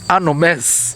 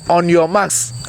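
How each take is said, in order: First: The words are run together into one blur. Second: The words are said separately and clearly. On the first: The speaker calls it wrong. "not anomes" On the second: The speaker calls it right. "We said on your marks"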